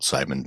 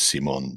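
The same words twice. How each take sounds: First: The name is said with English pronunciation. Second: The name is said with French pronunciation. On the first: The speaker calls it wrong. "not Simon" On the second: The speaker calls it right. "I believe it is Simon, because he is, after all, French"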